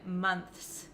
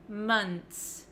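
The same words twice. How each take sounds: First: It ends with a th sound before the s. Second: It ends in nts, with no th sound. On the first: The speaker calls it wrong. "You have to stick your tongue out for the T H" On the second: The speaker calls it right. "And then just finish it off with an N T S"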